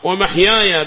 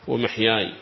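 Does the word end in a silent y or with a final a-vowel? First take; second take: a-vowel; silent y. First: The final y carries an a vowel. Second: The final y is silent, with no vowel. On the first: This follows the reading of the majority. "بفتح الياء" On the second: This follows the reading of the people of Medina. "وصل بنية الوقف فسكن"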